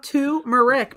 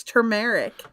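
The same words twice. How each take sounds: First: Turmeric said TOO-mer-ick; turmeric starting with "too", no R; R dropped. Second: Turmeric said ter-MARE-ick; turmeric with the first R sounded; R pronounced. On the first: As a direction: quote the R-less turmeric, "toomeric". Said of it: "it's not turmeric because there's an R". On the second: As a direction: correct turmeric with a clear "tur". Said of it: "because there's an R in it". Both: Shown as a demonstration.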